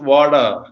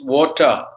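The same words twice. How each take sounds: First: The t sounds like a d. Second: The final r is dropped, non-rhotic. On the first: "in American English it is" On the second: "in British English it is"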